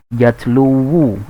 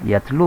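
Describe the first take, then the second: First: The word ends with an added 'wu' syllable. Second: The word ends without an added 'wu' syllable. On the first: The speaker calls it wrong. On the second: The speaker calls it right.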